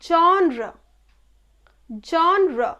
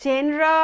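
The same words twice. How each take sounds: First: Genre said ZHON-ruh; genre as falling "zhawn-ruh"; correct pronunciation. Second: জেনরা said JEN-raa; জেনরা as jen-raa, held level; common mispronunciation. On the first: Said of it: "the appropriate pronunciation is". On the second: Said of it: "এইভাবে আমরা উচ্চারণ করি". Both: Shown as a demonstration.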